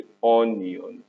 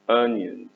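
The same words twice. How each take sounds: First: "onions" wrongly opened with a round O sound; mispronounced onions. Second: "onions" opened with a short "uh"; correct onions. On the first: Teacher showing pupils the mistake to avoid, "onions" with an O. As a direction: say "onions" as "ON-yon", with a full O. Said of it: "onions دي غلط". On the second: Teacher modelling the right word for pupils, "onions" starting "uh". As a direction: say "onions" as "UN-yenz", first syllable stressed. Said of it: "الأو هنا بتنطق". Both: Shown as a demonstration.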